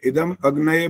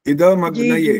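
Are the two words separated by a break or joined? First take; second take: break; joined. First: The two words are said separately with a break. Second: The two words are joined into one word. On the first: The speaker calls it wrong. "अभी भी वही गलती करी है" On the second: The speaker calls it right. "ऐसा करना होता है"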